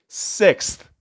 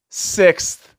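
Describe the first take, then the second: First: Breathy, hushed in disbelief; awed hush. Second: Sixth landed firmly with a fall; emphatic repeat. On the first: Stunned by Sevilla's sixth title, hushed Sixth. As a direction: barely voice the word Sixth. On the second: Stressing Sevilla's sixth cup, firm emphatic Sixth. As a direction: hit Sixth hard and final. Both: Real, not acted.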